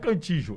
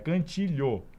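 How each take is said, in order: First: The middle consonant is a j-like sound. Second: The middle consonant is an lh-like sound. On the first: The speaker calls it wrong. "não é cantijo" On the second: The speaker calls it right. "é cantilho"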